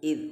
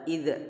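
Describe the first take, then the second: First: The final consonant is held without a bounce. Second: The final consonant is released with a bounce. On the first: The speaker calls it right. "tapi id" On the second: The speaker calls it wrong. "jangan dipantulkan, jangan dibaca id"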